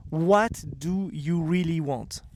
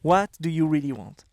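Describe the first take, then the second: First: Slow emphatic question. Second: French accent. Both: Shown as a demonstration. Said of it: "With my French accent".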